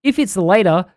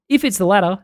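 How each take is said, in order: First: "later" said with a long "ay" vowel; misread word. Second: "latter" said with a short "a"; short-vowel "latter", as a correction; corrected word. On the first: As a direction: read "later" as in "see you later". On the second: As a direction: read "latter" to rhyme with "matter". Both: Acted. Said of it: "two T's in later".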